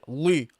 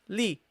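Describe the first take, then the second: First: The syllable is pronounced heavy and thick. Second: The syllable is pronounced light and gentle. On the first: The speaker calls it wrong. "Don't say li, li. Don't make it heavy" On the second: The speaker calls it right. "Gently. Pronounce it gently"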